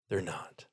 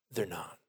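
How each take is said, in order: First: Lower, soft They're not; firm denial repeated. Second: THEY'RE not, low and soft; firm quiet denial. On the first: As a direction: say it again, softer and sure. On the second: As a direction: settle it quietly and firmly. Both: Shown as a demonstration.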